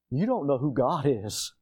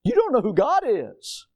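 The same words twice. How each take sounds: First: Said in the usual way. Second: Emphatic repeat. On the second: Shown as a demonstration. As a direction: hammer the rebuke home.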